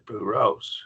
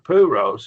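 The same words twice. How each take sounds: First: The stress is on the last syllable. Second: The stress is on the first syllable. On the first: The speaker calls it right. "The accent goes on that last syllable" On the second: The speaker calls it wrong.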